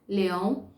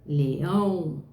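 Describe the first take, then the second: First: Said in the usual way. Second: "leão" with a stretched, stressed final ÃO; sílaba tônica forte. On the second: Shown as a demonstration. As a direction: lean hard on the last syllable of "leão". ("leão" com o "ão" forte e alongado) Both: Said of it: "Preste atenção no pedacinho mais forte".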